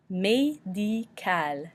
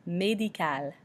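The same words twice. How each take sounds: First: Médical stretched out as may-dee-KAL; slow French pronunciation. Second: Médical as may-dee-kal in one smooth word; French pronunciation. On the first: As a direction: say Médical very slowly, each vowel French. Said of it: "makes the A noise". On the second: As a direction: say médical the French way, not drawn out. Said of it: "pronounce the vowels like they are French". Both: Shown as a demonstration.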